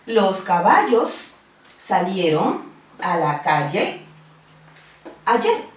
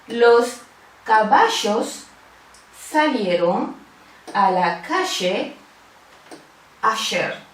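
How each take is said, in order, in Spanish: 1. Los sonidos LL e Y suenan como una 'y' suave. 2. Los sonidos LL e Y suenan como una 'sh' siseante. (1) "Fíjense que la doble L y la Y suenan igualito" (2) "hay una fricción que le da un sonido bien particular"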